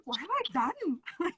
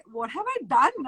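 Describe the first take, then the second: First: High, slow and soft, aghast at herself; a mock-despairing hushed wail; hushed dismay. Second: Said in the usual way. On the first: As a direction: whisper it like you just realised the damage. Repeated panicked self-quote.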